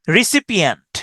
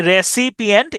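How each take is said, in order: First: Said in the usual way. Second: Slow "রেসিপিয়েন্ট", starting re, not ri; spelled-out E. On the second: Shown as a demonstration. Teacher applies the same spelling aid, slow "রেসিপিয়েন্ট" starting re. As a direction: say "রেসিপিয়েন্ট" slowly with re first. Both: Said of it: "রিসিপিয়েন্টেও একই".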